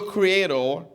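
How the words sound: The word is said with a British accent. "We from the British version"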